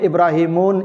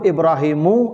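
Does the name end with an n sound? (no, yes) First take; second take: yes; no. First: The name ends with an added n sound. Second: The name ends on a vowel, no n. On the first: The speaker calls it wrong. "Tidak boleh Ibrahimun" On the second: The speaker calls it right. "Yang boleh itu Ibrahimu"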